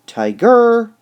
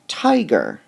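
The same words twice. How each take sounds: First: "tiger" with a loud, high, wrong punch on GER; wrong stress on GER. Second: "tiger" con fuerza en TI; first-syllable stress. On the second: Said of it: "you can hear that the word is". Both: Shown as a demonstration.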